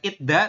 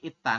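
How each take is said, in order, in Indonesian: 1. Konsonan di tengah terdengar seperti d. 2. Konsonan di tengah terdengar seperti t tegang. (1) "Bukan Itda" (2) "tapi Itta"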